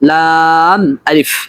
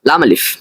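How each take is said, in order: First: It is said as two separate letter names. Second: It is run together as one joined name. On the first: It is treated as two letters. The speaker calls it right. "বরং উচ্চারণ করতে হবে লাম আলিফ" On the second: It is treated as a single letter. The speaker calls it wrong. "এটা এরকম উচ্চারণ করা ভুল"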